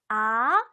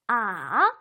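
First: The pitch rises from low to high. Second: The pitch dips down and comes back up. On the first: "아래서 위로" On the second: "내려갔다 올라오며"

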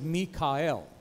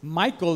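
First: It is said Mi-ka-el, in three syllables. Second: It is said the English way, two syllables. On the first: The speaker calls it right. "at least in Hebrew, Michael is Mikael" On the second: The speaker calls it wrong. "you're pronouncing the name wrong"

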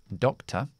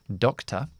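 No difference in how they are said.

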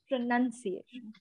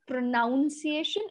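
First: The second syllable has the 'uh' vowel, like 'nun'. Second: The second syllable has the 'ow' vowel, like 'noun'. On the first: The speaker calls it right. "it becomes pronunciation" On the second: The speaker calls it wrong. "it's not pronounced as pronunciation"

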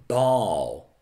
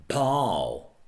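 Both takes have the same delivery.

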